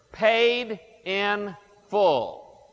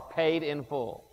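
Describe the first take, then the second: First: Paid in full, drawn out. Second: Quiet, slower "paid in full" after the first; soft repeat. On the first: Preacher to congregation, slowly spelling out the note. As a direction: stretch each word slowly, "Paid... in... full". Reading the debt note aloud. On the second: Preacher explaining tetelestai, softly echoing the phrase. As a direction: let "paid in full" fall softly, almost to yourself. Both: Acted.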